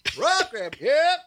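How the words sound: It is called out with a rhythmic vendor inflection. The speaker calls it right. "You got to have the right voice. ... You got to get that rhythm"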